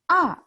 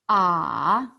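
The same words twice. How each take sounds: First: The pitch falls sharply from high to low. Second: The pitch dips low and then rises. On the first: "fourth tone, 四声. That's a angry sound" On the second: "三声, is third tone, thinking sound"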